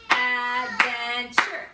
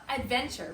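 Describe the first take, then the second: First: "Adventure" loud and slow, in three beats, ad-ven-ture; clapped-out syllables. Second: Said in the usual way. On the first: Shown as a demonstration. Teacher leading pupils clapping a big word, "Adventure" broken as ad-ven-ture. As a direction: clap out "Adventure", each syllable separate. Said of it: "Clap it out with me".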